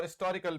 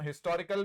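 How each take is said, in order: First: हिस्टोरिकल said istorikal, h dropped; हिस्टोरिकल with no h sound; historical without h. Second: हिस्टोरिकल with a clear h, his-to-ri-kal; हिस्टोरिकल with the h sounded; historical with h. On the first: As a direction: say हिस्टोरिकल with a silent h. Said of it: "और हिस्टोरिकल भी है". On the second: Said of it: "इसका उच्चारण हिस्टोरिकल भी है". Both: Shown as a demonstration.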